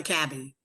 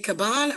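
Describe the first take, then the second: First: Cabin said "KAB-in"; Cabin stressed on first syllable. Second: Caban said "kuh-BAHN"; Caban stressed on second syllable. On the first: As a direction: say Cabin like the word for a log hut. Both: Shown as a demonstration. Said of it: "Is it Caban or Cabin?".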